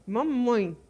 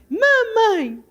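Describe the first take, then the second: First: Said in the usual way. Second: Put-on high little-child voice saying its first word; baby's first word. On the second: Shown as a demonstration. Preacher imitating a baby's first word, high. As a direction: say it up high like a toddler. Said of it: "fala assim".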